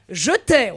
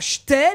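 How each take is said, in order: First: Every syllable is pronounced in full. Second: A syllable is dropped, said in reduced form. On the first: The speaker calls it right. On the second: The speaker calls it wrong. "On ne dit pas"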